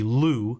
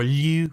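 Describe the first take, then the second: First: It is said with an English accent. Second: It is said with a French accent.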